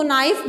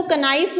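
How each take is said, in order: First: नाइफ said naif, K silent; correct pronunciation. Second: कनाइफ with the K sounded, k-naif; wrong pronunciation shown. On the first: Teacher giving the class the right reading, silent K. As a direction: say नाइफ with no K at the start. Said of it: "इसको नाइफ बोल रहे हैं हमने". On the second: Teacher showing the class the wrong way, K sounded. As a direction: say कनाइफ sounding the silent K up front. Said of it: "इसमें हम इसको कनाइफ नहीं बोलेंगे". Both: Shown as a demonstration.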